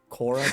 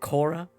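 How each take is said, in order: First: The name is said with a put-on accent. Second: The name is said in a plain voice.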